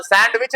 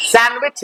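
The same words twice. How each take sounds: First: "सैंडविच" said sand-wich; wrong pronunciation. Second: "सैंडविच" said san-wich; correct pronunciation. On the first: Teacher rejects it for class, "सैंडविच" with d sounded. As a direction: keep the d in "सैंडविच". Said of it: "तो सैंडविच नहीं है". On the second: Teacher answers with the right reading, "सैंडविच" without d. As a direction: swallow the d in "सैंडविच" entirely. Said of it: "ये क्या है?". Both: Shown as a demonstration.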